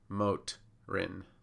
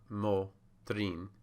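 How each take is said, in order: First: The syllable break comes right after the T. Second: The syllable break comes right after the O. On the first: This is the English way of dividing it. "English is going to break at the consonants" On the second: This is the Spanish way of dividing it. "Spanish is going to break at the vowel"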